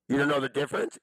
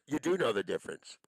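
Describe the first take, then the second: First: Louder, rising, accusing "You don't know the difference?"; loud accusing question. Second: Said in the usual way. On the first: Real, not acted. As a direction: throw "don't" at him as a loud challenge. Angry rant at an absent person.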